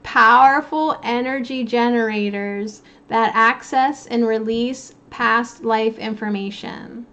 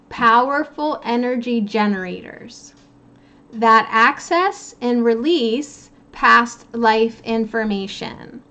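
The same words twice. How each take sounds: First: The sentence is read at a quicker pace. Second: The sentence is read at a slower pace.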